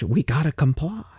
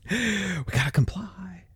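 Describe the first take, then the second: First: Said in the usual way. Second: Slow, breathed-out whisper; hushed compliance. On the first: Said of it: "who's gonna grumble about it". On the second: Acted. A rule follower accepting the cash law, in a hushed whisper. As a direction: whisper it slowly, as if giving in.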